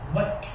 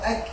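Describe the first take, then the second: First: The syllable starts with a w sound, lips rounded. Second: The syllable starts with a glottal catch, lips spread. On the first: The speaker calls it wrong. "it'll be Wak, Wak, the wow sound will be in there" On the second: The speaker calls it right. "instead of Ak"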